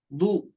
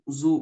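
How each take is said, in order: First: The consonant has a d-like sound without buzzing. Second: The consonant has a buzzing z-like sound. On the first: The speaker calls it right. "kalau dot tidak ada Z-nya" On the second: The speaker calls it wrong. "jangan ada Z"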